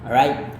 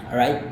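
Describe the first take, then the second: No difference in how they are said.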